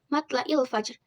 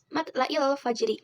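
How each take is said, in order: First: The last word ends on a cut-off consonant. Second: The last word ends with a short vowel. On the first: The reading stops at this word. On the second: The reading continues without stopping.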